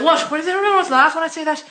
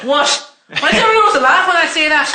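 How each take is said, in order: First: Fast leprechaun retake. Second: Mock indignant leprechaun. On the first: Shown as a demonstration. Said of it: "So I'll do that". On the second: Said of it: "and everyone goes".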